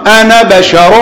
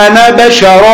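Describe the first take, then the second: First: The final vowel of 'ana' is kept short. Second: The final vowel of 'ana' is kept short.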